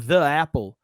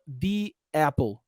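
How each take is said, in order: First: The word the has a short uh vowel. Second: The word the has a long ee vowel. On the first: The speaker calls it wrong. "fica até difícil de falar assim, ó" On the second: The speaker calls it right. "Fala the apple"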